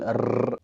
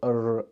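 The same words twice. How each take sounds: First: The r is said the Arabic way. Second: The r is said the American way. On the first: "احنا بنقول" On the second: "هما بيقولوا"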